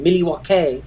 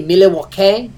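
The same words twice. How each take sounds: First: A light Canadian-sounding Milwaukee, mil-ee-wau-kay; only hint at a Canadian accent on Milwaukee; slight Canadian-style Milwaukee. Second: Said in the usual way. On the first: Shown as a demonstration. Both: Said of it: "I have that type of accent".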